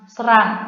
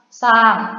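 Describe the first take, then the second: First: An R sound is pronounced after the S. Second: The R sound is silent after the S. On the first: The speaker calls it wrong. "bukan serang" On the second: The speaker calls it right. "R-nya ini tidak dibaca"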